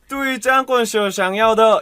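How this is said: It is said in a Shanghai accent. "상하이 발음은 ... 이게 중국 샹하이 발음이고"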